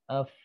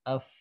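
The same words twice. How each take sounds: Both takes have the same delivery.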